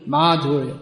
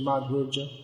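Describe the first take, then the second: First: The ending is said with a y sound. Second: The ending is said with a j sound. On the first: This is the standard way of saying it. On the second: This is the regional way of saying it.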